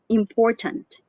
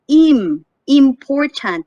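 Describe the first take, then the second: First: The first vowel is soft, quick and unstressed. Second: The first vowel is full and separated off. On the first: The speaker calls it right. "You just say important" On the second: The speaker calls it wrong. "You don't say im, important"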